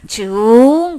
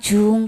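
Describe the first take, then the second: First: The pitch curves upward through the syllable. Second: The pitch stays level through the syllable. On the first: It is the character meaning again or repeated. "발음이 이렇게 휘어져서 올라가요" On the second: It is the character meaning middle. "가운데는 그냥 중 그냥 그 중간 발음 나는 거예요"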